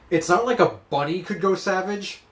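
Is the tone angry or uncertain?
angry. The line is said in an angry tone. "it's not angry"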